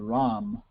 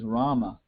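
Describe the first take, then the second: First: The name ends on the m sound. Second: The name ends with a vowel after m. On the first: This is the everyday modern form of the name. "in Bengali and Hindi, you don't say that. You say Ram" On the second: This is the classical form of the name. "real pronunciation is Rama, That's the Sanskrit pronunciation"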